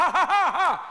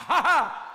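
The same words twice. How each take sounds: No difference in how they are said.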